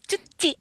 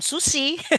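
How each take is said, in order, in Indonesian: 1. Kata ini diawali dengan bunyi 'ch'. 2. Kata ini diawali dengan bunyi 's/sh' yang mendesis. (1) "jadi cuci gitu ya harus ya" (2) "itu harus jangan sushi"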